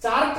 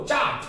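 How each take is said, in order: First: चार्ट with the r sounded; wrong pronunciation. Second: चार्ट with silent r; correct pronunciation. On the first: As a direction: say चार्ट as "chaart". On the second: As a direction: say चार्ट as "chaat", falling. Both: Shown as a demonstration. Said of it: "चार्ट मत बोलो उसको".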